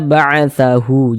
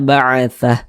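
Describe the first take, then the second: First: The word ends with a final u vowel. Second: The word ends on a bare h sound. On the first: The reader continues without pausing. The speaker calls it wrong. "Jangan dibaca ba'atsahu" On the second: The reader is pausing at this word. The speaker calls it right. "disukunkan huruf H-nya"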